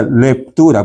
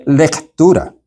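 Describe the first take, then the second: First: "Lectura" said as "leptura", with a P in place of the C; mispronounced reading. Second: "lectura" with a clear K sound before the T; correct pronunciation. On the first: Retold or imitated. Instructor imitating the reader's wrong "Lectura" as "leptura". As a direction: repeat the slip: "Lectura" with a P. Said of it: "ponía una P en vez de una C". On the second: Shown as a demonstration. Instructor showing lectors the right "lectura", clear K. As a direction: say "lectura" properly, a crisp C. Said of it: "que la palabra es lectura".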